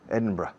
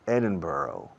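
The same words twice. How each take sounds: First: It is said the British way, ending 'bruh'. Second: It is said the American way. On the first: "the people in Scotland and England say Edinburgh, bruh, bruh" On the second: "the Americans say Ed- Edinburgh"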